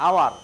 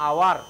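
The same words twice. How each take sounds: Both takes have the same delivery.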